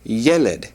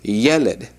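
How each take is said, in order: First: The stress is on the first syllable. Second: The stress is on the first syllable.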